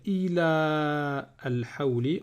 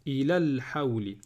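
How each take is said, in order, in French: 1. La voyelle avant 'al' est longue. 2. La voyelle avant 'al' est courte. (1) "Au lieu de dire" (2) "on va dire"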